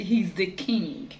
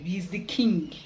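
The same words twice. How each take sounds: First: He's the king said very slowly, each word weighted; slow emphasis. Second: Said in the usual way. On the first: Shown as a demonstration. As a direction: drag out He's the king to make it land. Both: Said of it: "I don't know how best to be".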